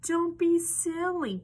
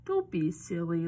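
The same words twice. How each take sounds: First: High, loud, slowed scolding hens; barking chickens. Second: Lower-pitched, lightly voiced frog; low, amused frog brushing off worry. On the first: Chickens tell Little Piglet off for fearing Wolf, high barked scolding. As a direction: scold loudly as indignant hens. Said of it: "barked the chickens". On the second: Frog tells Little Piglet not to worry about Wolf, low and amused. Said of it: "laughed the frog". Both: A narrator's reading.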